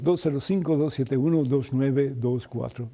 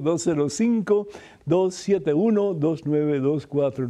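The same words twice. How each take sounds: First: The number is said at a faster pace. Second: The number is said at a slower pace.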